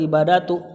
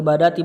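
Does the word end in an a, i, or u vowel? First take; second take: u; i. First: The word ends with a u vowel. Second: The word ends with an i vowel. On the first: The word is in the nominative case. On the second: The word is in the genitive case.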